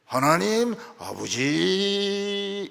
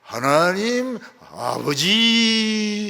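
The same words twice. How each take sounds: First: 하나님 아버지 stretched very slowly; drawn out. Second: Very slow, stretched 하나님 아버지; drawn-out prayer opening. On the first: Shown as a demonstration. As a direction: drag out 하나님 아버지 reverently. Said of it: "이거 끌어줘야 됩니다". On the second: Retold or imitated. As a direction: draw the words out reverently. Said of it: "기도를 참 은혜스럽게 하죠".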